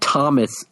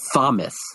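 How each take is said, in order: First: It begins with a plain T sound. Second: It begins with a th sound.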